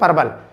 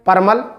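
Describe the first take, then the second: First: The middle consonant is a V sound. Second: The middle consonant is an M sound. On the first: The speaker calls it right. "परवल होते हैं" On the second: The speaker calls it wrong. "परमल नहीं होते"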